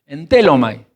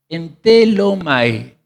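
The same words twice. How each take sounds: First: Entelomai said at normal speed with the stress on its E. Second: Entelomai spelled out slowly, syllable by syllable; a teacher sounding out entelomai slowly; slow syllable demo. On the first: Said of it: "ese acento en la E, ese esdrújula". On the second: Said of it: "ese acento en la E". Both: Shown as a demonstration.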